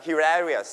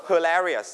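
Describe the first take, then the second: First: Hilarious starting with "he"; British-style hilarious, full "hi" vowel; British pronunciation. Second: Hilarious starting with schwa "huh"; American-style hilarious, reduced first vowel; American pronunciation. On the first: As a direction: say hilarious as "he-larious". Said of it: "แต่ถ้าเป็น British จะเป็น he". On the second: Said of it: "อเมริกันจะออกเสียง". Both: Shown as a demonstration.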